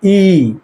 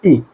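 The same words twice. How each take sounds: First: ई held for two beats; long vowel. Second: ई said short, for one beat; short vowel. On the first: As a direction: draw ई out to double length. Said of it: "मतलब दो गुना समय लगा". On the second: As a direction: give ई just a single beat. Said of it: "मतलब क्या कहेंगे इसको". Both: Shown as a demonstration.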